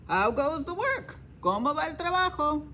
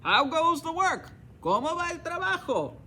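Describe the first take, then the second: First: Raised, lazy farmer calling from bed; a hint of a bossy farmer, questioning lift. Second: Higher, louder lazy farmer calling. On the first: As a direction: call out like a lazy boss, asking up high. Farmer calls to the duck. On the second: Acted. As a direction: call out demanding from bed. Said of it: "And he called".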